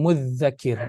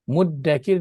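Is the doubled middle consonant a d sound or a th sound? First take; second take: th sound; d sound. First: The doubled middle consonant is a soft th. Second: The doubled middle consonant is a hard d. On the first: "mudzakir yang di zal nipis, sabdu pula lagi" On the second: "ditukar jadi muddakir"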